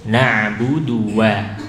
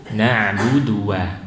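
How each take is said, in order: No difference in how they are said.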